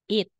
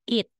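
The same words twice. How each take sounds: Both takes have the same delivery.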